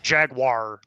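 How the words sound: Jaguar is said with an American pronunciation. The speaker calls it wrong. "not Jaguar, like how they say in in American English, because that's objectively wrong"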